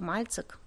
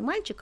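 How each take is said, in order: First: The middle consonant is a 'ts' sound. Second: The middle consonant is a 'ch' sound. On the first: This is how some dialects say it. "есть цокающие говоры, да, мальцик, например, скажут" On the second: This is the standard pronunciation. "Не мальчик"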